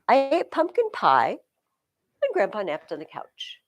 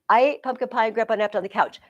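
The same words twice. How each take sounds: First: There is a pause after pie. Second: It is said in one breath.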